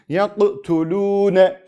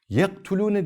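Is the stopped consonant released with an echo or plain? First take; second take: echo; plain. First: The stopped consonant bounces with an echoing release. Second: The stopped consonant is plain, without an echo. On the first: The speaker calls it right. "Yaktulune şeklinde okuyorum" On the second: The speaker calls it wrong. "Yaktulune demiyorum"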